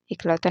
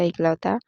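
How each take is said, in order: First: इकलौता said as "iklauta"; "ik-lau-ta" for इकलौता; wrong pronunciation. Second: इकलौता said as "eklauta"; "ek-lau-ta" for इकलौता; correct pronunciation. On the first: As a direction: open इकलौता on a short i. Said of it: "नहीं होता". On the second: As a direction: open इकलौता on an e sound. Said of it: "इकलौता नहीं होता". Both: Shown as a demonstration.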